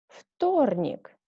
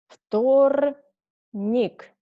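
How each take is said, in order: First: The word is said fast. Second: The word is said slowly. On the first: Said as a native speaker normally would. "second time I read faster, like a normal native speaker" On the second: Said carefully, as a teacher would. "First time I read slowly"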